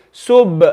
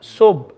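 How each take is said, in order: First: Sub with a bounced b; with qalqala. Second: Sub stopped dead on b; without qalqala. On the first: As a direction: pop the lips open after Sub. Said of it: "I wanna read it like this". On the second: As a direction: keep the final b of Sub unreleased. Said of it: "don't wanna read it like this". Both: Shown as a demonstration.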